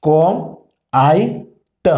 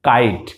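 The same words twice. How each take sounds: First: ক, আই, ট as three separate sounds; phonetic sounding out. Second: Said in the usual way. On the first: Shown as a demonstration. Teacher showing pupils how kite is built, each sound separate. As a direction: sound out ক... আই... ট, pausing after each. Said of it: "phonetic sound অনুসারে মিলাই". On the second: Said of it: "কি হয়েছে?".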